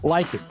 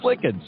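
First: The name is said in an English-style way. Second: The name is said in a Norwegian way. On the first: The speaker calls it wrong. "many people have mispronounced that as Lickin" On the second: The speaker calls it right. "the proper Norwegian pronunciation"

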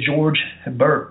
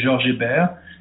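First: The name is said with American pronunciation. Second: The name is said with French pronunciation.

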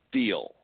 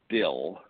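First: The vowel is long, as in 'steel'. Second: The vowel is short, as in 'still'. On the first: The speaker calls it right. "they say you pronounce it steel" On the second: The speaker calls it wrong. "every time I say still, they correct me"

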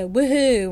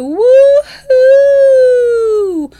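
First: The vowels are short and clipped. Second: The vowels are stretched out and exaggerated. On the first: The speaker calls it wrong. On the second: The speaker calls it right.

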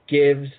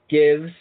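No difference in how they are said.

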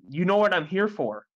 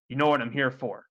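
First: It is said in a plain voice. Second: It is said in a stern voice.

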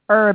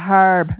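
First: The word is said the American way. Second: The word is said the British way. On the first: "they say herb" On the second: "instead of herb"

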